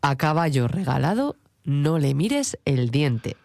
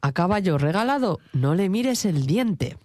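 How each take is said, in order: First: It is said slowly. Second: It is said at normal speed.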